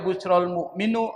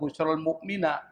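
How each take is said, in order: First: The last word ends in a u vowel. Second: The last word ends in an a vowel. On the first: "Enggak boleh dibaca" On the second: "Enggak boleh dibaca"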